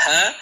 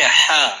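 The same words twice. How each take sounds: First: ہا breathed lightly from the front of the mouth; a thin, light ہا with the air at the lips; ہا said thin from the front, not the throat. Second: ہا pushed from the middle of the throat, thick and breathy; a heavy ہا drawn from far back in the throat; ہا said thick from the throat, as in Arabic ح; deep throat ha. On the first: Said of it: "منہ کے اگلے حصے سے". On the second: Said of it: "اب پیچھے جائیے". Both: Shown as a demonstration.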